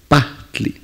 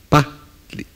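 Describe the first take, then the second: No difference in how they are said.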